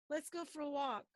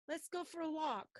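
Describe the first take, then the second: No difference in how they are said.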